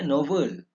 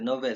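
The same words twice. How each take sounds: First: The second vowel is a clear e sound. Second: The second vowel is a weak schwa sound. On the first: The speaker calls it right. "Yang betulnya novel" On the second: The speaker calls it wrong. "Sebenarnya sebutan itu adalah sebutan yang salah"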